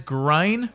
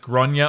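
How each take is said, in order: First: The name is said in one syllable, like grain. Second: The name is said in two syllables, like gronya. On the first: The speaker calls it wrong. "they don't realise how you're meant to pronounce it, and they pronounce it as grain" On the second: The speaker calls it right. "generally pronounced as Gronya or thereabouts"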